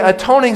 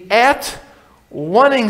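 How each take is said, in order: First: The middle part is said as 'tone'. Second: The middle part is said as 'one'.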